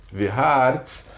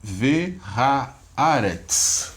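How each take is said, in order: First: Said in the usual way. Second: Ve haaretz drawn out syllable by syllable, very slow; teacher modelling Ve haaretz at a crawl; slow syllable-by-syllable reading. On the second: Shown as a demonstration. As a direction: spell out Ve haaretz slowly for the class. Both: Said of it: "como é que ficou a leitura agora?".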